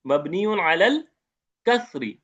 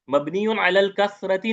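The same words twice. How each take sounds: First: कसरी said short and clean, without the ता ending, rising on अलल; correct form demo. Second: कसरती said with the extra ती ending as the form to avoid; wrong form demo. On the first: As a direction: give the right form कसरी clearly. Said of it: "इसको कसरी पढ़ेंगे". (सही उच्चारण कसरी, बिना गोल ता के) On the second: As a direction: model the mistake कसरती so students hear it. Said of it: "नहीं बोलेंगे". (ग़लत उच्चारण कसरती का नमूना) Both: Shown as a demonstration.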